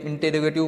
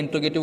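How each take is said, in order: First: "इंटेरोगेटिव" with the e kept, in-te-ro-ge-tiv; teacher giving the long form "इंटेरोगेटिव"; full variant pronunciation. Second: "इंट्रोगेटिव" said with the e dropped, in-tro-ge-tiv; teacher giving the short form "इंट्रोगेटिव"; short variant pronunciation. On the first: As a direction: sound every syllable of "इंटेरोगेटिव". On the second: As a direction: squeeze "इंट्रोगेटिव" into four quick syllables. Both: Shown as a demonstration. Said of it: "इसको अलग अलग बोलते हैं".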